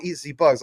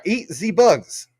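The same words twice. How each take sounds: First: Said in the usual way. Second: Slow, higher put-on voice. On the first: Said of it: "I'll say it like this". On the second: Shown as a demonstration. Streamer reads a viewer's name aloud in a slow put-on voice. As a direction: drag each word out in a silly voice. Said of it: "I'll say it in, in, uh, apparently your voice".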